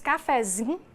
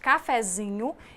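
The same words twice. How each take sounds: First: The final syllable of the word is dropped. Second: The word is pronounced completely, with every syllable. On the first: This is how speakers from Minas Gerais say it. "Nós temos o costume de não finalizar as palavras" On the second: This is the standard form of the word. "no lugar de"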